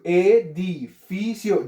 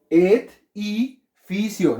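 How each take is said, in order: First: EDIFICIO slowly split as E-DI-FI-CIO, consonant leading each syllable; correct syllable division. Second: EDIFICIO wrongly split as ED, I, FICIO, with long gaps; absurd syllable division. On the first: Teacher showing the right division, syllable by syllable. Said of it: "Edificio consta de cuatro sílabas". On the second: Teacher giving an absurd example, wrongly split syllables. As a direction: break EDIFICIO after the D: ED... I... FICIO. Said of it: "vea, un ejemplo absurdo". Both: Shown as a demonstration.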